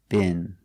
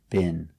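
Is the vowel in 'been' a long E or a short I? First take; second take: short I; short I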